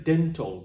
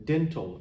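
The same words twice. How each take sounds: The two takes are said the same way.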